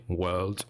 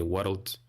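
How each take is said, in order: First: "world" said in one syllable, the English way; English pronunciation of "world" in one syllable. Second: "world" in two syllables, "wor-ld"; Scottish "world" split into two syllables. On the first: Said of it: "English people will say world". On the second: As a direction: add an extra syllable inside "world". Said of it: "I say world". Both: Shown as a demonstration.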